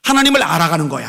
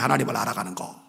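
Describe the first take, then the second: First: Said in the usual way. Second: Softer echo. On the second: Shown as a demonstration. Preacher repeats point softly.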